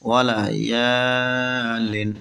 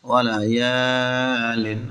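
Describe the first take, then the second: No difference in how they are said.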